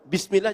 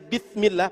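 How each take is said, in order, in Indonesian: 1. Konsonan setelah 'bi' adalah bunyi s. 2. Konsonan setelah 'bi' adalah bunyi th. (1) "dari sin" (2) "pakai tha"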